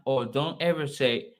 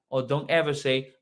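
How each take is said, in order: Both takes have the same delivery.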